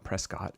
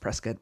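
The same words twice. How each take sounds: First: It is said the non-local way. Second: It is said the local Arizona way. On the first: The speaker calls it wrong. "so it's not Prescott" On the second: The speaker calls it right. "It's Arizona, It's Prescott"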